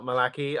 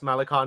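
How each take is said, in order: First: The name ends with an 'ee' sound. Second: The name ends with an 'eye' sound. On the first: The speaker calls it wrong. "not Malaki" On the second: The speaker calls it right. "It's pronounced Malachi"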